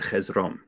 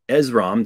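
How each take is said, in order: First: The name begins with an h sound. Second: The name begins directly with a vowel sound. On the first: This is how ancient Greeks actually said it. "they would have said Hezrom" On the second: This is how the written Greek form reads. "So Esrom"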